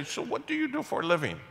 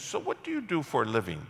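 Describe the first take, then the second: First: Mock-innocent high question. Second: Said in the usual way. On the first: Pastor mimicking the man abruptly changing topics, high and mocking. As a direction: pitch it up, mimicking the guy's abrupt switch. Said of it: "and then you stop and say". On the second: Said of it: "And he says".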